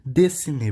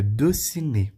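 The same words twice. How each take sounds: First: "Dessiné" as "dé-ci-né"; first vowel of "Dessiné" open, not rounded; correct pronunciation. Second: "dessiné" as "deu-ci-né"; common mispronunciation. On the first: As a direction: say "Dessiné" with a clear "e" in the first syllable. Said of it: "Não". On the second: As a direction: say "dessiné" with a rounded French "eu" in the first syllable. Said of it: "muita gente já falaria". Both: Shown as a demonstration.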